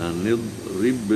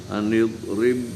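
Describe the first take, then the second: No difference in how they are said.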